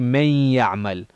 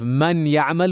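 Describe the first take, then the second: First: The N merges into the following Y sound. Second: The N is said clearly before the Y. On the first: The speaker calls it right. "we'd say ... Those are examples of uh, idgham" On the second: The speaker calls it wrong. "instead of"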